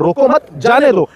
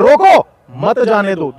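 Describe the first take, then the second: First: "रोको मत" run together, pause, then "जाने दो"; group "रोको मत" as one phrase, break, then say "जाने दो"; pause after मत. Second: Slow, punched "रोको", pause, then "मत जाने दो"; pause after रोको. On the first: Showing listeners two readings of one line, pause after "मत". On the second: Showing how the same line changes meaning, pause after "रोको". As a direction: hit "रोको" hard, break, then run "मत जाने दो" together. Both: Shown as a demonstration. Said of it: "दोनों में अंतर है".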